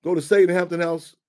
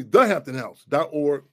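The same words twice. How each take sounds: First: Said in the usual way. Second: Slower, louder "the hampton house dot org" spelled out clearly; corrected web address. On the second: Real, not acted. Host correcting the website address for listeners, slow and clear. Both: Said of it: "No, no, excuse me".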